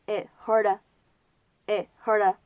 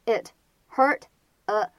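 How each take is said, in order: First: "it hurt" with a silent held T in "it", then "hurda"; slow demo of "it hurt" as i(t)-HUR-da; held T and linking. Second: Said in the usual way. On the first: Shown as a demonstration. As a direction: link "hurt" into a following "a", stopping the T of "it". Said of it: "可以做连读". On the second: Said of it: "可以有不完全爆破".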